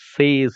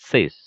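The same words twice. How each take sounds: First: The vowel in the word is long. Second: The vowel in the word is short. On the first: The speaker calls it wrong. "സേസ് അല്ല" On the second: The speaker calls it right. "അത് short ആയിട്ട് പറയണം"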